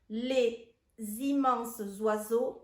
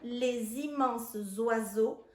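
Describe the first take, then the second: First: The words are said without liaison sounds. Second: The words are joined with liaison sounds. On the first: "sans la liaison" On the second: "je fais les liaisons"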